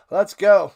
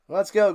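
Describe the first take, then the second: First: Loud rallying cry; hype shout. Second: Said in the usual way. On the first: Real, not acted. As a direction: pump up the chat. Hype sign-off, said twice.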